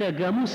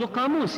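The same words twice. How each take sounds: First: The word begins with a hard g sound. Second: The word begins with a deep q sound. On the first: It can be heard as calling someone a buffalo. "لكن القاف يقولونها جاء" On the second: It means a dictionary. "هو قصد قاموس يعني"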